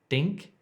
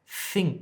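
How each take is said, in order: First: The word begins with a hard d sound. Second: The word begins with a soft th sound. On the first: The speaker calls it wrong. "Don't say dink if you're trying to say think" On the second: The speaker calls it right. "trying to say think"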